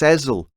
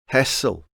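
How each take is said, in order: First: The middle consonant is a buzzing z sound. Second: The middle consonant is a hissing s sound. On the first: The speaker calls it right. "Like that song Liza with a Z" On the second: The speaker calls it wrong. "He's probably the sort of guy who'd pronounce it [name] anyway"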